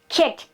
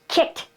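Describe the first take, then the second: Both takes have the same delivery.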